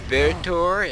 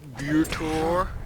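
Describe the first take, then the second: First: The Y is said with a short vowel. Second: The Y is said with a long vowel. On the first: "if it's a" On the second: "if it's a long Y"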